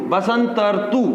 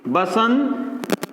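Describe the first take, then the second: First: Said in the usual way. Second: Slow spelled-out repeat. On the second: Shown as a demonstration. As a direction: stretch बसंतर्तु out slowly so the class can follow. (बसंतर्तु धीरे-धीरे खींचकर) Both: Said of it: "देखो बसंत plus ऋतु".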